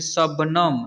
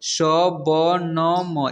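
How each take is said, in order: First: Said in the usual way. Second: शबनम very slow, each letter separate; शबनम broken into drawn-out letters; spelled out letter by letter. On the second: Shown as a demonstration. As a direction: sound out शबनम one long letter at a time. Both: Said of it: "इसे पढ़ेंगे".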